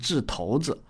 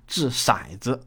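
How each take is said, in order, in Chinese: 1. “骰”字读 tou。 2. “骰”字读 shai。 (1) "确实是念掷骰子" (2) "而不是念掷骰子"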